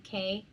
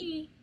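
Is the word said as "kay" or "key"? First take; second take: kay; key. First: The word is pronounced like "kay". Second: The word is pronounced like "key". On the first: The speaker calls it wrong. "you might have said K" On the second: The speaker calls it right. "but C A Y is pronounced"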